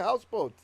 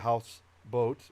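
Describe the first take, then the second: First: It is said as one compound word. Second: It is said as two separately stressed words. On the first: The speaker calls it right. "We say houseboat" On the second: The speaker calls it wrong. "We don't say house boat"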